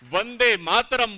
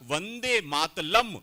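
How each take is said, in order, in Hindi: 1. बीच का व्यंजन R ध्वनि है। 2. बीच का व्यंजन L ध्वनि है। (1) "बिन तुतलाए" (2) "वंदे मातलम के ल को"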